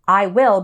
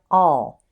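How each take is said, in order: First: Both words are said fully and separately. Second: The vowel is reduced, sounding like 'all'. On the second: "it often sounds like all"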